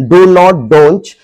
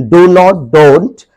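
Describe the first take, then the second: Both takes have the same delivery.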